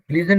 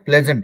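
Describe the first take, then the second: First: The first vowel is a long 'ee' sound. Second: The first vowel is a short 'eh' sound. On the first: The speaker calls it wrong. "प्लीजेंट नहीं होता" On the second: The speaker calls it right. "प्लेजेंट होता है"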